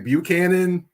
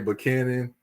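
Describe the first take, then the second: First: It uses a non-local pronunciation. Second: It uses the local Nashville pronunciation. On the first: The speaker is not from Nashville. The speaker calls it wrong. "You don't say Buchanan" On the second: The speaker is from Nashville. The speaker calls it right. "if you're from Nashville, you say Buchanan"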